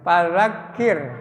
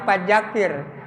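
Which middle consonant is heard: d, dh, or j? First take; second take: dh; j. First: The middle consonant is a soft 'dh' sound. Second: The middle consonant is a 'j' sound. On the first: The speaker calls it right. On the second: The speaker calls it wrong.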